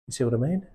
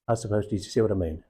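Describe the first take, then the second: First: "You see what I mean?" rising at the end like a real question; genuinely inquisitive, rising "mean". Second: "you see what I mean?" falling flat like a statement of fact, a bit quicker; telling, not asking. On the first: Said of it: "One is, I'm asking you a question". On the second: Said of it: "One is, I'm telling you a fact". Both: Shown as a demonstration.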